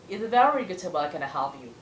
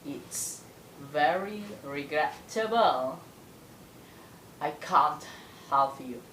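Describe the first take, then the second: First: The sentence is spoken at a medium speed. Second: The sentence is spoken slowly, with intonation. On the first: "Itu sedangnya, versi sedang" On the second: "Itu versi yang lambatnya. Tapi tetap berintonasi"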